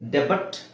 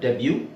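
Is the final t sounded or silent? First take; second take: sounded; silent. First: The word ends with a sounded t. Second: The word ends without any t sound. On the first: The speaker calls it wrong. "ಡೆಬಟ್ ಅಲ್ಲ" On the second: The speaker calls it right.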